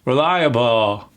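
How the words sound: The final L is relaxed and barely heard. The speaker calls it right. "in the American English, that last L is relaxed"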